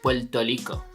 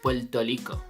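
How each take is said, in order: First: Rico begins with an L sound. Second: Rico begins with an L sound.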